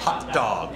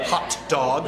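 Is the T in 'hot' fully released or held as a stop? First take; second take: held; released. First: The T in hot is held as a stop. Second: The T in hot is fully released. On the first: The speaker calls it right. "It's a stop plosive" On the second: The speaker calls it wrong. "Not hot dog"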